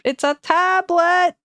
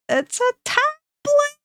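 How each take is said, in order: First: Higher, slow, louder correction; high drawn-out correction. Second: Very high, slow squeak; squeaky silly voice. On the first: Repeating with rising silliness. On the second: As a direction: squeak it out like a cartoon. Repeating even higher. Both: Pretend.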